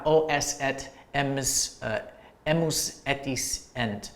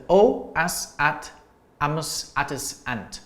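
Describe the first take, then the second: First: "es, et, emus, etis, ent" each opening on E; E endings. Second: "as, at, amus, atis, ant" each opening on A; A endings. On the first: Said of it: "can sometimes be an E ending". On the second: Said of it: "I'm using an A ending here". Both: Shown as a demonstration.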